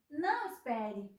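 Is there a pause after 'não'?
no. There is no pause after não.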